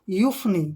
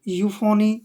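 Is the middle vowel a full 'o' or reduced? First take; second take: reduced; full. First: The middle vowel is reduced, with no 'o' sound. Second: The middle vowel is a full 'o' sound. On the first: The speaker calls it right. "और ओ इसमें silent रहेगा" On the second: The speaker calls it wrong. "बोलने वाले तो बोल देते हैं यूफोनी, कुछ भी बोल देते हैं"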